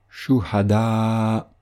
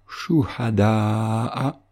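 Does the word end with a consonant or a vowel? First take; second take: consonant; vowel. First: The word ends without a final vowel. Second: The word ends with a short final vowel. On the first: The reciter stops or pauses on this word. "cette voyelle est remplacée par un soukoun" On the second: The recitation continues to the next word. "tel qu'il doit être prononcé dans le cas d'une récitation continue"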